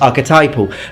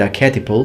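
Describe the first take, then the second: First: It is pronounced the standard English way. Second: It is pronounced like the Italian word archetipo. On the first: The speaker calls it right. "Now I know it's archetypal" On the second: The speaker calls it wrong. "I used to mispronounce that, and I said archetypal uh, because in Italian it's archetipo"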